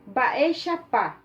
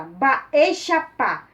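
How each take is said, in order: First: Said in the usual way. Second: Louder and firm, a mock stern tone; a bit fierce. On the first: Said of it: "vocês falam Guarani meio bravo". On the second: Shown as a demonstration. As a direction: say Baexapá with a bold, stern punch. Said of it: "você fala com um tom bem mais bravo".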